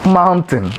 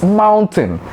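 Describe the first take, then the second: First: "mountain" flattened to "man-tin"; mispronounced mountain. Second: "mountain" slowly with full ow, "mown-tain"; correct mountain. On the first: Teacher contrasting the error, "mountain" as "man-tin". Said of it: "and not mountain". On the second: Teacher giving the right word, "mountain" slowly as "moun-tain". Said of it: "It's mountain and not mountain". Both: Shown as a demonstration.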